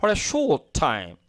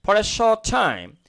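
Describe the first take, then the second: First: Short said the American way; slow American read of short; American English demo of short; American accent. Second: Short said the British way, rounded o; slow British read of short; British English demo of short; British accent. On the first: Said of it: "আর American শর্ট বলবে". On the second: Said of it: "এটা যদি আমি ব্রিটিশরা বল". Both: Shown as a demonstration.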